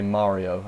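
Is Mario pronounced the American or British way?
American. It is pronounced with an American vowel. The speaker calls it right. "I better make sure I say Mario"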